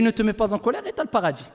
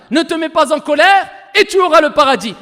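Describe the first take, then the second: First: Low, soft and quick; understated, hushed rendering of counsel; quiet quoted translation. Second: Louder, forceful translated promise; ringing, insistent preacher's declaration; emphatic proclamation. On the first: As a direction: relay the promise softly, briskly. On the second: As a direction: drive the promise home loudly. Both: Retold or imitated.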